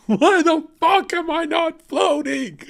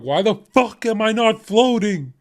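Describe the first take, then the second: First: Much higher, louder, slow shout broken by laughter; hammed-up furious shout. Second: High, louder outraged yell at being left behind; exasperated yell. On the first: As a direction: bellow it in mock outrage, laughing. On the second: Retold or imitated. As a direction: shout it in disbelief when the rapture skips you. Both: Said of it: "I'm gonna be like".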